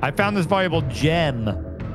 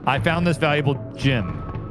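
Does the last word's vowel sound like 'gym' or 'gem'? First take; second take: gem; gym. First: The last word has the clear 'eh' vowel. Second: The last word's vowel sounds close to 'gym'. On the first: The speaker calls it right. "There you go" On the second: The speaker calls it wrong. "No, that's wrong"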